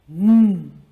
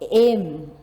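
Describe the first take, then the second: First: The letter is said as its sound. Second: The letter is said as its name. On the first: The speaker calls it right. "We say M" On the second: The speaker calls it wrong. "we don't say it like that"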